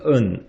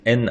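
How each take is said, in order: First: The letter is said as a nasal 'eun' sound. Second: The letter is said as 'en', ending abruptly. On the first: "중국은 N, N이라고 안 하고 은이라고 합니다" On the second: "한국은 이제 N, N, I, M 이렇게 얘기하잖아요"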